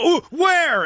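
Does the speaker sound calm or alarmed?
alarmed. It sounds alarmed and panicky.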